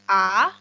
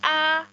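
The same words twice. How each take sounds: First: It is said with the second tone, rising. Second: It is said with the first tone, high level. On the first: "yang kedua a" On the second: "yang pertama ini kita sebut sebagai a"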